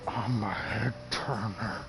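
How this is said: It is said in a disgusting-sounding voice.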